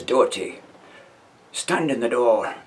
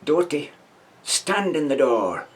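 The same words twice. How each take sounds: First: Firm, slow command, lightly voiced; a hint of a parade-ground sergeant; sergeant's order. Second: Slow, deliberate command, name called higher; drawn-out stern order; sergeant's order. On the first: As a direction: sergeant calling the second man to the door, lightly voiced. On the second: Retold or imitated. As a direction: sergeant giving Doherty one more chance, slow and stern. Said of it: "he says".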